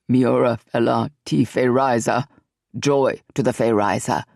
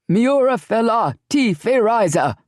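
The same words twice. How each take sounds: First: Lightly voiced cry. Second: Higher, louder chanted shout; shouted reply. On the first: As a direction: lead the chant with a low voice. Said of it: "He glanced at his Fey brethren and cried". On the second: Acted. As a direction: warriors roar the salute back. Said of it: "the other four shouted back".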